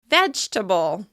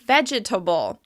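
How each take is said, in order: First: The word is said with three syllables. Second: The word is said with four syllables. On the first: The speaker calls it right. "we say it with only three syllables" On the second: The speaker calls it wrong. "it seems like it should be pronounced like vegetable"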